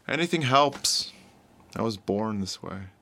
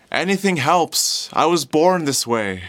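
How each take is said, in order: First: Soft, subdued plea; broken-spirited, tired. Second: Louder, drawn-out hopeful call; hopeful, optimistic. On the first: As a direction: plead quietly, worn down and defeated. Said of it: "his spirit has been broken". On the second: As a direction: call out to passers-by full of optimism. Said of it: "so full of life and optimism". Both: Acted.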